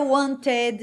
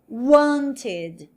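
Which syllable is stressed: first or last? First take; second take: last; first. First: The stress is on the last syllable. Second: The stress is on the first syllable. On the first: The speaker calls it wrong. "eu não vou dizer wanted, não" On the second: The speaker calls it right. "Eu mantenho a mesma sílaba"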